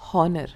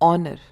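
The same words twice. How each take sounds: First: The word starts with an h sound. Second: The word starts without an h sound. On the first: The speaker calls it wrong. "instead of honor" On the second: The speaker calls it right. "we say it as honor"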